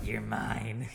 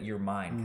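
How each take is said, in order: First: The voice is raspy, creepy and possessive. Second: The voice is low, smooth and confident. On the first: The man comes across as a possessive creep. The speaker calls it wrong. "someone who's like Schmeagle" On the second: The man is attractive and takes initiative. The speaker calls it right. "with the really smooth tonality"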